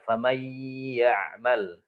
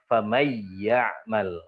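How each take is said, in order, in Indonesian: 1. Huruf n yang digabung ditahan dengan dengung sengau. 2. Huruf n yang digabung tidak ada dengung sengau. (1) "dengan idgham bi gunnah" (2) "Idgham tapi tidak dengan gunnah"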